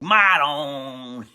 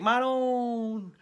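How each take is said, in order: First: It is said in an angry, exasperated tone. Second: It is said in a happy, pleased tone. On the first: The speaker is annoyed with someone. "if she was mad, she'd be like" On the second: The speaker is glad to see someone. "if my mother was happy to see me, she'd say"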